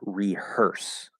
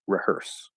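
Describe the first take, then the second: First: The first vowel is a full 'ee' sound. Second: The first vowel is reduced to a schwa. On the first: "That's the fully enunciated word" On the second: "or to a schwa"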